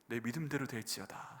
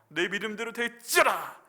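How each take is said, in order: First: The phrase is said quietly and softly. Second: The phrase is said loudly and forcefully. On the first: "조용히" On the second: "이렇게 세게"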